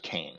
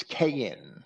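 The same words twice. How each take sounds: First: Cain as one syllable, KAYN; elided English pronunciation. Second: Cain as two syllables, KAY-in; original pronunciation. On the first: Teacher showing the shortened English name, Cain said as one syllable. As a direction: say Cain with the middle Y dropped, rhyming with "lane". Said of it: "elided that". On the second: Teacher showing the proper form of the name, Cain said KAY-in. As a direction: say Cain like "KAY-yin", with a Y glide. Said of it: "would be proper". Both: Shown as a demonstration.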